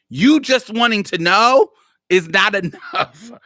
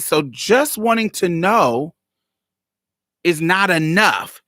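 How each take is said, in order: First: Louder, higher retelling of the retort. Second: Said in the usual way. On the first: Retold or imitated. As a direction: press the retort harder and higher. Repeats her retort twice.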